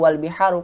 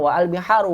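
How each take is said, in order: First: The 'a' of 'al' is dropped and linked. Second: The 'a' of 'al' is pronounced as a separate syllable. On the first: The speaker calls it right. "Disambung wal biharu" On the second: The speaker calls it wrong. "Kita tidak bilang wa al-biharu"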